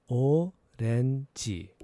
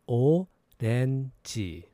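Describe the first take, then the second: The two takes are said the same way.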